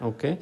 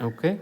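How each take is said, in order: The two takes are said the same way.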